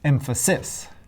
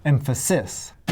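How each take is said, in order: Both takes have the same delivery.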